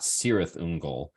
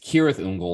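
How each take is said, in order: First: The first word begins with an S sound. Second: The first word begins with a K sound. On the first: The speaker calls it wrong. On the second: The speaker calls it right.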